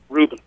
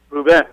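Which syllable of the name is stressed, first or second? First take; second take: first; second. First: The stress is on the first syllable. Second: The stress is on the second syllable. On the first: The speaker calls it wrong. "don't say Ruben" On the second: The speaker calls it right. "the accent's on the second side"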